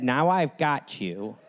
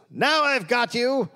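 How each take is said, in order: First: Slow, low, deadpan gloat; flat deadpan quote. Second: High hammy villain cry; silent film villain. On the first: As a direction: say it dry and unimpressed. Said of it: "He said". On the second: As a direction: gloat it like a melodrama villain. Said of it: "like silent film villain". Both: Retold or imitated.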